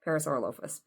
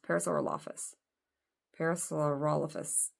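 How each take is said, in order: First: Parasaurolophus as para-saur-o-LOAF-us; stress on LO. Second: Parasaurolophus as para-saur-OL-o-fus; Parasaurolophus, middle syllable rhyming with "doll"; stress on ROL. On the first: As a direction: say Parasaurolophus with a long "oh" in lo, like loafers. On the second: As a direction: say Parasaurolophus with a short open "ol" in the middle. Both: Shown as a demonstration. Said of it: "putting the emphasis on the wrong syllable".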